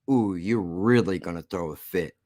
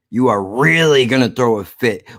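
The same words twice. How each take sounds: First: Low, soft taunting purr; soft teasing. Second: "are" and "really" leaned on hard; emphatic repeat. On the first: Vlogger teasing angry viewers, hushed and low. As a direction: tease them under your breath. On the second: Vlogger taunting viewers, stressing "are" firmly. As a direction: drive the point home, firmer. Teasing the viewers twice over. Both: Real, not acted.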